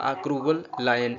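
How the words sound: A pause separates 'cruel' from 'lion'. The speaker calls it wrong. "यानी आपने ये नहीं बोला"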